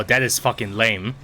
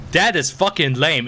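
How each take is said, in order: First: Said in the usual way. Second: THAT hit high and loud, "is fucking lame" drawn out; slow, punchy emphasis starting hard on "That"; emphatic disgust. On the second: Real, not acted. Gamer repeating a complaint about the game, emphatic disgust.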